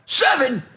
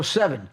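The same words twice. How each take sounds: First: High, loud shocked repeat; incredulous echo. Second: Said in the usual way. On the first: Retold or imitated. Donnie balks at seven tickets, incredulous. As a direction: echo it back in disbelief.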